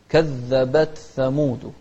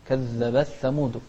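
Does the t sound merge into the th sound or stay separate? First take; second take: separate; merged. First: The t and th sounds stay separate. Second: The t sound merges into the th sound. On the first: The speaker calls it right. "هي لا" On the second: The speaker calls it wrong. "فتحط فيها إدغام"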